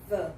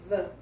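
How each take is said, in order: First: The word ends in a short 'uh' vowel. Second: The same.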